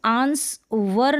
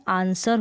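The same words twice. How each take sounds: First: आंसवर slowly broken up, with the W sounded; wrong sounded-W reading. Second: आंसर as "aan-sar", no W; silent-W pronunciation. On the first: Teacher warns learners off the misreading, slow W-sounding आंसवर. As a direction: say आंसवर slowly as "aans-var". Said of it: "अब इसको आंसवर ना पढ़ें". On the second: Teacher gives learners the proper reading, silent-W आंसर. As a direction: say आंसर leaving the W out. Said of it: "इसका जो उच्चारण है आंसर होता है". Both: Shown as a demonstration.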